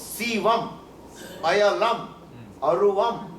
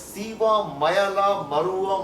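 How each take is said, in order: First: Each word keeps its final m, said apart. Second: The final m sounds run into the next word. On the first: The speaker calls it right. "સંધિ છૂટી પાડો ને તો" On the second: The speaker calls it wrong. "બોલીએ છે ને, પણ ખરેખર એ એ નથી"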